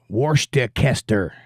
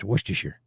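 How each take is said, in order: First: Every written syllable is pronounced as spelled. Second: Several written syllables are dropped and shortened. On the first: The speaker calls it wrong. "if you pronounced it like you spelled it, you would say Worcestershire" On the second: The speaker calls it right. "It's Worcestershire"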